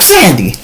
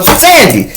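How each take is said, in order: First: Said in the usual way. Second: Higher, urgent call of her name; a touch of panic calling Sandy; alarmed call. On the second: Retold or imitated. Calling wife louder, alarmed.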